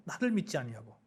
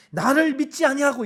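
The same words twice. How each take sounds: First: "나를 믿지 아니하고" repeated lower and much softer; quiet repeat. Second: "나를" hit high and loud, God's indignant voice; stern divine rebuke. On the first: Preacher echoing God's words to the congregation, quietly and lower. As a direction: let the rebuke sink in, lower and hushed. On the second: God rebuking Moses for unbelief, stern and loud. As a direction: punch "나를 믿지 아니하고" as a louder, higher rebuke. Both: Acted. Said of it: "이렇게 말씀하거든요".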